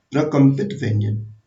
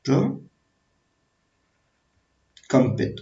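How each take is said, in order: First: Said in the usual way. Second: प्रकंपित stretched very slowly, syllable by syllable; teacher stretching the term for dictation; drawn-out term. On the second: Shown as a demonstration. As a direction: spell out प्रकंपित in slow motion. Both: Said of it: "रा को हम बोलते हैं प्रकंपित".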